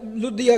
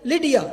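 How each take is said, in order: First: The first vowel sounds like 'oo'. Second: The first vowel sounds like 'ee'. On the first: This is the Urdu form of the name. "जिसे उर्दू में लुदिया लुदिया कह सकते हैं" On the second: This is the easier form of the name. "लिडिया is easy to pronounce"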